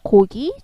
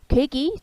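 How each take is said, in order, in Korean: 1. 첫 모음은 뒤쪽에서 나는 'o' 소리예요. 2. 첫 모음은 앞쪽으로 나는 'oe' 소리예요.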